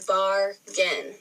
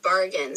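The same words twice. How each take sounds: First: "bargain" slowly broken into bar, gain; split into syllables. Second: Said in the usual way. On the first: Shown as a demonstration. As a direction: say "bargain" as two drawn-out beats. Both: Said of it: "break down those syllables".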